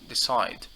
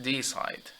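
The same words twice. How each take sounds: First: The stress is on the second syllable. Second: The stress is on the first syllable. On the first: The speaker calls it right. "we tend to stress the second syllable" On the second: The speaker calls it wrong. "not decide"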